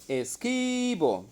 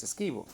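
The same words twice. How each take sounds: First: "Esquivo" with the KI stretched long and pitched high; stress on the accented syllable. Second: Said in the usual way. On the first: Shown as a demonstration. Teacher locating the accent in a verse's last word, stressed and stretched "Esquivo". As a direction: draw out the middle syllable of "Esquivo", raised well up. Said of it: "Luego identifico el acento". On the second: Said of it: "Identifico el, la última palabra".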